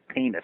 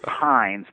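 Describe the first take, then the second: First: The name is two syllables, sounding like penis. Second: The name is one syllable, rhyming with lines. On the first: The speaker calls it right. "but it's actually penis" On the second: The speaker calls it wrong. "I'd sort of rather say Pines"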